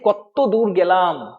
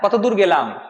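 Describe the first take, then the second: First: The t sound is doubled and held long. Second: The t sound is short and plain.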